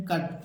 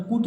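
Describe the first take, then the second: First: "कट" with a short uh, no oo; short uh vowel. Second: "कुट" with an oo instead of uh; wrong oo vowel. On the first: Teacher giving the correct reading, short-vowel "कट". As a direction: read "कट" with the bare a sound. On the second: Teacher warning children off a misreading, oo-vowel "कुट". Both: Shown as a demonstration. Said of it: "यहाँ पर कुट नहीं पढ़ेंगे".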